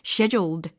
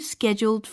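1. 영국식 발음입니다. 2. 비영국식 발음입니다. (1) "거의 scheduled 이렇게 들려요" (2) "영국식으로는 scheduled라고 들리지 않고"

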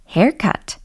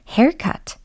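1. 영어 발음으로 발음합니다. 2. 영어 발음으로 발음합니다.

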